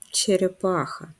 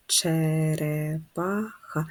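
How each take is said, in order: First: Said in the usual way. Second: Very slow whispered че-ре-па-ха split into syllables; slow whispered syllable count of черепаха. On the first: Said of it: "так?". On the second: Shown as a demonstration. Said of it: "Скільки складів у слові".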